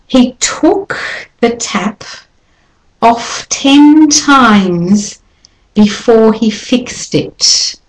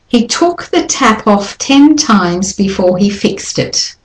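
First: The t sounds carry heavy, exaggerated puffs of air. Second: The t sounds carry normal, moderate puffs of air. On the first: "I'll do it with lots of air first" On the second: "now I'm going to do it normally, but still aspirated"

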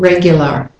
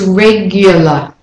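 First: It is said in an American accent. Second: It is said in a British accent.

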